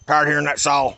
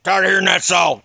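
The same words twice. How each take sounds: First: Annoyed dad. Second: Dad yelling, louder on the repeat; imitated angry shout. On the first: Retold or imitated. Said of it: "He comes out on the front porch and said". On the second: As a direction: bark it at him like an angry father. Dad angrily repeats himself.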